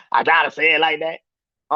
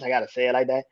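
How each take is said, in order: First: Slow and deliberate, stress on gotta; a pointed slow repeat with weight on gotta; slow, deliberate emphasis. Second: Said in the usual way. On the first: Shown as a demonstration. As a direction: lean hard on gotta and let each word land.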